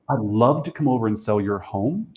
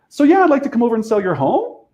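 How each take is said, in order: First: The voice falls at the end. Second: The voice rises at the end.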